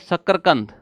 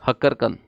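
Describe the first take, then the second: First: The word begins with an sh sound. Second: The word begins with an h sound. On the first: "सही होता है शकरकंद" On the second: "हम कहते हैं शकरकंद को हक्करकंद"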